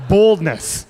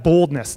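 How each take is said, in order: First: "Boldness" said slowly with a clear long O, not "bald"; clear correction. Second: Said in the usual way. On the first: Shown as a demonstration. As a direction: spell out "Boldness" so nobody hears "bald". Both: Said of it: "he thought I called him bald".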